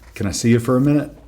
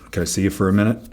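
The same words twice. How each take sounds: First: It sounds warm, as if smiling. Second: It sounds stern and unsmiling. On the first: The listener feels welcome and not scared. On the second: The listener may feel scared or in trouble.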